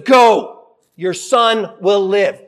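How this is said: It is said in a firm, commanding tone. It is a command given with power. "maybe they were said with more authority"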